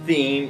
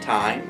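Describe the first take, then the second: First: It sounds like the single syllable theem. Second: It rhymes with the word dime. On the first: "I was calling it theme" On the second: "I was calling it time"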